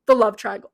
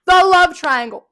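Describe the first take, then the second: First: Said in the usual way. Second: "the love triangle" slowed and much louder; louder repeat. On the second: Shown as a demonstration. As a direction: hammer "the love triangle" slowly.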